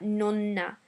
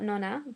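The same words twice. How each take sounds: First: The middle N is held long and stressed. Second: The middle N is short and light. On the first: The speaker calls it right. "more emphasis on that letter" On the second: The speaker calls it wrong. "So it's not nonna"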